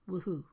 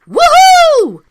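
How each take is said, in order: First: It is said with little enthusiasm. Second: It is said with more enthusiasm.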